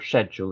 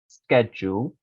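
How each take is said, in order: First: It is said with a British pronunciation. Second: It is said with a non-British pronunciation.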